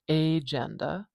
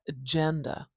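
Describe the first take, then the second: First: The first vowel is full and clearly pronounced. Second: The first vowel is very short and weak. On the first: The speaker calls it wrong. "or agenda" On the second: The speaker calls it right. "do you hear how short that first vowel is?"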